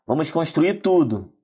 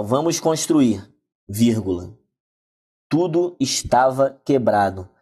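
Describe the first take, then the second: First: "vamos construir tudo." run together, stress falling on "tudo"; one flowing phrase, "tudo" as the object; read without the pause. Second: "Vamos construir," slow, a clear pause, then "Tudo estava quebrado." as a new clause; read with the comma pause. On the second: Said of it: "Nós temos aqui a primeira oração". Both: Shown as a demonstration.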